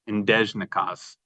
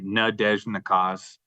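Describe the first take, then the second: First: The opening vowel is nearly dropped before the d. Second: The opening syllable is said clearly and stressed. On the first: "you hear more of the D" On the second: "they're emphasizing that first letter"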